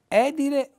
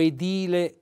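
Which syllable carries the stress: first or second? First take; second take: first; second. First: The stress is on the first syllable. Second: The stress is on the second syllable. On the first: The speaker calls it wrong. "l'accento della voce sulla E" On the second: The speaker calls it right. "con l'accento della voce sulla I"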